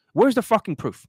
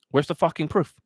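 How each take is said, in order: First: Demands the proof again, higher and louder. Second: Said in the usual way. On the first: Real, not acted. Coach ranting at viewers, demanding proof, higher and louder. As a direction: hammer the question at the audience.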